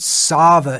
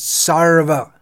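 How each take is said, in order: First: The R sound before the v is dropped. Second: The R sound before the v is pronounced. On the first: The speaker calls it wrong. "It's not Sava" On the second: The speaker calls it right. "it's Sarva"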